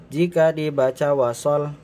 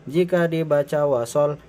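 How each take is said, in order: No difference in how they are said.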